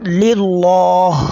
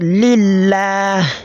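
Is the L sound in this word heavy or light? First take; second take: heavy; light. First: The L is heavy, with a full, deep sound. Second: The L is light, with the tongue lowered. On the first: The speaker calls it wrong. "it's not lillah" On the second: The speaker calls it right. "what we just did now here is known as at-tarqiq"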